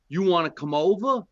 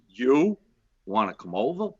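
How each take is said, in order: First: It is said in a plain, neutral tone. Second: It is said in a suggestive, meaningful tone.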